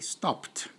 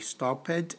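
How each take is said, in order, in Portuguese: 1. O final é pronunciado como t. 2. O final não é pronunciado como t. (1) "o som é de T" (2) "Não é stopped"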